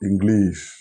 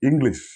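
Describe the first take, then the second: First: The last vowel is long, like 'eesh'. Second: The last vowel is short, like 'ish'. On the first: The speaker calls it wrong. "not English" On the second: The speaker calls it right. "is pronounced English"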